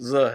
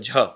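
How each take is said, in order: First: The letter is said with a 'z' sound. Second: The letter is said with an aspirated 'jh' sound. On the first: The speaker calls it right. "झ नहीं होता है, ज़ है।" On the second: The speaker calls it wrong. "मैंने कहा झ"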